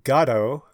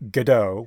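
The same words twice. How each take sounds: First: The stress is on the first syllable. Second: The stress is on the second syllable. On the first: This is the usual British way. "with the accent on the front" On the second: This is the usual American way. "with the accent on the do"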